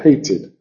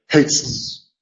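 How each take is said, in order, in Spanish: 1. La palabra se pronuncia con dos sílabas. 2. La palabra se pronuncia con una sílaba. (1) "hay que decir hated" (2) "no puedes decir hates, es imposible"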